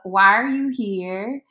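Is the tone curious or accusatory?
curious. It is asked in a gentle, curious tone.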